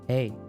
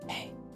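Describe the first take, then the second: First: The word is spoken softly with voice. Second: The word is whispered without voice.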